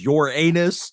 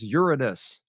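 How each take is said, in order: First: The word sounds like the phrase 'your anus'. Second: The word does not sound like 'your anus'. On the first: The speaker calls it wrong. "Would you please not pronounce it as your anus?" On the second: The speaker calls it right. "it is Uranus"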